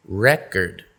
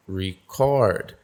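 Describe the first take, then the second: First: Record stressed on the first syllable, REcord, falling tune; noun stress. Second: Record stressed on the second syllable, reCORD, long falling tune; verb stress. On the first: Teacher contrasting noun and verb, REcord. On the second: Teacher contrasting noun and verb, reCORD. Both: Shown as a demonstration. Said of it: "where the syllable stress is".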